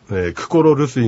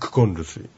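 First: The full 'ro' syllable comes before 'rusuy'. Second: An 'n' replaces 'ro' before 'rusuy'. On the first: This is the underlying full form. "クコロルスイがクコンルスイ" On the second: This is how the two r sounds merge in speech. "クコロルスイがクコンルスイ"

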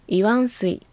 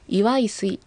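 First: An 'n' sound comes before 'sui'. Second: An 'i' sound comes before 'sui'. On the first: "6 回、または何回もという意味の" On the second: "と発音されることもあります"

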